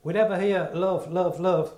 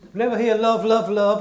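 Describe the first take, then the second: First: Said in the usual way. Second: Louder, pressing each love hard; repeating "love, love, love" louder so it lands; emphatic repeat. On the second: Shown as a demonstration. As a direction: drive it home to the congregation.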